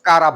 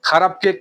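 First: The first consonant is plain, without aspiration. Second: The first consonant is breathy, with aspiration. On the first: The speaker calls it wrong. "কারাপ বলি" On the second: The speaker calls it right.

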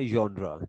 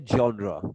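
First: The word begins with a Y sound. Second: The word begins with a J-like sound. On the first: This is how people in South Asia commonly say it. "इसको वाई sound के साथ pronounce करते हैं" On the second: This is the dictionary pronunciation. "अगर dictionary में आप इसको देखें तो जे साउंड है जॉनरा"

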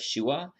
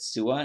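First: The word begins with an sh sound. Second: The word begins with a plain s sound. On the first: This is the original Hebrew way of saying it. "instead of Shua" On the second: This is the Greek way of saying it. "I don't think they had an SH sound. So they said Sua"

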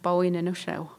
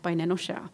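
First: The first word keeps a clear W sound. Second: The first word drops the W sound entirely. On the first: This is the older form of the language. "there's a W there" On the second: This is how younger fluent speakers say it. "So there's no W there at all"

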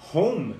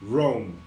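First: The word begins with a breathy h sound. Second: The word begins with an English r sound. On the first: The speaker calls it wrong. "quando você vê um R, você quer falar home aqui" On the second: The speaker calls it right. "Não, I live in Rome"

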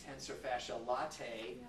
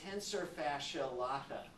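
First: The last word ends with an 'ay' sound, like latte. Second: The last word ends in a plain 'ah' vowel. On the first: The speaker calls it wrong. "A lot of people like to pronounce it tensor fascia latae. I think they've spent way too much time at Starbucks" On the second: The speaker calls it right. "A next muscle that I listed is the tensor fascia lata"

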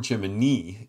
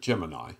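First: Gemini is said with NASA's official pronunciation. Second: Gemini is said with the common everyday pronunciation.

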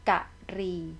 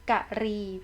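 First: The word is said as two syllables. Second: The same.

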